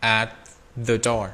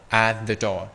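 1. Âm t trong at được phát âm đầy đủ. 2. Âm t trong at bị lược bỏ. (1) "mệt lắm mọi người" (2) "người ta sẽ đọc là bỏ âm tờ đi"

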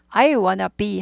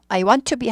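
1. "Want to"는 "wanna"로 줄어듭니다. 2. "Want to"는 t까지 살려서 완전하게 발음합니다. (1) "발음이 I wanna be 하죠" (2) "I want to be 한 사람 거의 없습니다"

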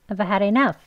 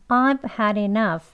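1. 이 문장은 빨리 말했어요. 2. 이 문장은 천천히 말했어요. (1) "빨리 더 하겠습니다" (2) "천천히 같이 해볼게요"

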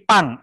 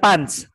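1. Suku kata ini berakhir dengan bunyi 'ng'. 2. Suku kata ini berakhir dengan bunyi 'nch'. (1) "tapi pang, eng" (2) "Bukan punch"

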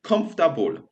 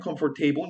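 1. Skraca się do trzech sylab, 'komf-ta-bul'. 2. Wymawia się wszystkie cztery sylaby, kończąc jak w 'table'. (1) "angielski często skraca sylaby" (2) "nie mówimy comfortable, nie wymawiamy table"

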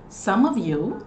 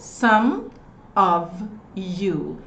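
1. As palavras são ditas juntas, rapidamente, sem pausas. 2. Cada palavra é dita separadamente, com pequenas pausas. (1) "Ele falou some of you ... Vê como esse pulo é rápido de um pro outro?" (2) "ele não falou some of you"

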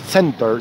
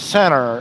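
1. El sonido de la T en el medio se pronuncia claramente. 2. El sonido de la T en el medio se omite. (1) "en Estados Unidos no es center" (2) "la T, no, pero no suena"

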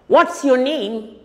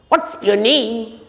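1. पहले दो शब्द जुड़कर एक हो जाते हैं। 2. पहले दो शब्द जुड़कर एक हो जाते हैं।

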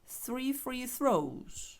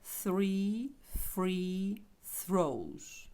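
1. Фраза вимовляється швидко. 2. Фраза вимовляється повільно. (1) "Тепер швидше" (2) "Ще раз повільно"

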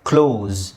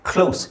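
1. ಈ ಪದ z ಧ್ವನಿಯಲ್ಲಿ ಕೊನೆಗೊಳ್ಳುತ್ತದೆ. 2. ಈ ಪದ s ಧ್ವನಿಯಲ್ಲಿ ಕೊನೆಗೊಳ್ಳುತ್ತದೆ. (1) "ಇಲ್ಲಿ ನೋಡಿ ಝೆಡ್ ಇದೆ" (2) "ಇಲ್ಲಿ ಎಸ್ ಇದೆ"

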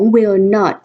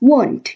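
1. ออกเสียงเป็นสองคำเต็มแยกกันค่ะ 2. ออกเสียงเป็นคำย่อคำเดียวสั้นๆ ค่ะ (1) "ซึ่งตัวย่อของ" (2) "ออกเสียงได้เป็น"

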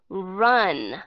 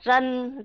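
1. R là R tiếng Anh, môi tròn. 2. R là R tiếng Việt, môi không tròn. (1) "các bạn nhớ u cái miệng lại" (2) "nếu mà đọc theo âm R của tiếng Việt Nam"

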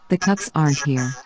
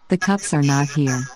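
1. Las palabras 'are not' se contraen a 'aren't'. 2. Las palabras 'are not' se dicen completas.

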